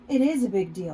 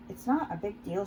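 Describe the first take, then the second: First: Louder, insisting "It is a big deal"; raised voice, stressing "is" in annoyance; annoyed contradiction. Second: Mildly defensive, at an even level; understated defensive denial. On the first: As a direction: contradict firmly, leaning on "is". Annoyed contradiction of the line before. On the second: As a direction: brush it off, a touch defensively. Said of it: "she answers defensively". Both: A narrator's reading.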